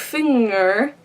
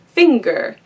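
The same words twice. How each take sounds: First: No separate g is heard after ng. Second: A clear hard g follows the ng. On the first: The speaker calls it wrong. "you wouldn't say finger" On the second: The speaker calls it right. "you clearly pronounce the, the g sound"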